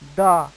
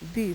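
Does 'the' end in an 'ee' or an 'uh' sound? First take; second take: uh; ee. First: The word ends with an 'uh' sound. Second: The word ends with an 'ee' sound. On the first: A consonant sound follows. "if you find any consonant sound or word, you must say the" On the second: A vowel sound follows. "if you see any vowel sound or vowel word, you should pronounce the"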